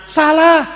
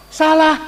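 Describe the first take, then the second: No difference in how they are said.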